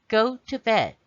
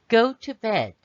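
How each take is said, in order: No difference in how they are said.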